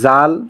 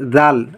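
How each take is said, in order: First: It is pronounced the Persian way. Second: It is pronounced the Arabic way. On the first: "কিন্তু ফার্সিতে জাল" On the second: "আরবিতে হবে জাল"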